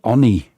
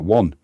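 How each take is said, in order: First: It is sounded out following its letters. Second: It is said with the usual English pronunciation. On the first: "if you're going to do it phonetically, it would be" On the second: "we see one, and I just think, yeah"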